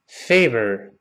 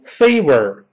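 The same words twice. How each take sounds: First: The middle consonant is a teeth-on-lip V sound. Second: The middle consonant is a rounded-lip W sound. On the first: The speaker calls it right. "上牙触下唇" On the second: The speaker calls it wrong. "不要读favor"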